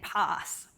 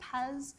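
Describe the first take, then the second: First: It is said in an Australian pronunciation. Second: It is said in an American pronunciation. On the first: "the very Aussie way of saying it" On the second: "talking to my colleagues in America, they tend to say paz"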